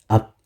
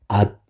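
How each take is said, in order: Both takes have the same delivery.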